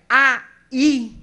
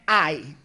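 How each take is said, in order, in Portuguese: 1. As duas vogais são separadas em duas sílabas. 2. As duas vogais se unem em uma só sílaba. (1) "eu tenho duas sílabas diferentes. Houve uma separação" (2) "Eu tenho uma só sílaba. As duas vogais foram ditas na mesma sílaba"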